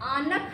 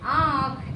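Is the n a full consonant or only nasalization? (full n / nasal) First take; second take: full n; nasal. First: A full n consonant is pronounced before kh. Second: The vowel is nasalized with no separate n. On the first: The speaker calls it wrong. "इसको हम आनख नहीं पढ़ेंगे" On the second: The speaker calls it right. "आँख ऐसे बोलते हैं"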